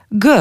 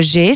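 First: G said as a hard "gueu"; hard g plus eu for G, not "jé"; G as in "guh"; Albanian letter sound. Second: Said in the usual way. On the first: Shown as a demonstration. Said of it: "ça se prononce G". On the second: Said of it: "ça se prononce".

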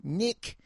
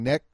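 First: "Nick" for neck, pitched high; Australian-accented vowel. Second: Said in the usual way. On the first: Shown as a demonstration. Showing how contestants say neck, "Nick" in a high Australian accent. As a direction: say "Nick" as an Aussie says neck, with a tight short i. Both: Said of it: "They're saying neck".

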